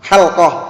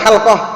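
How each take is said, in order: First: The l and q sounds come directly together. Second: The same.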